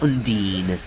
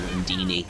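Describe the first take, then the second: First: The word ends without an extra final vowel. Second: The word ends with an extra 'ee' vowel. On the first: The speaker calls it right. "I will continue to call it Undine now" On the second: The speaker calls it wrong. "rather than Undini, even though I do prefer saying that, it's more fun"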